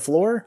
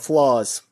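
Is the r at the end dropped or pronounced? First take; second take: pronounced; dropped. First: The word ends with a clear r sound. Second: The word ends without an r sound. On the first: "You mean the floor?" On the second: "it was all like New York accent"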